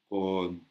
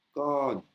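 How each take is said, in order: First: Said in the usual way. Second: "kon" raised high and firm; "kon" corrected to a high Thai tone. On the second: Shown as a demonstration.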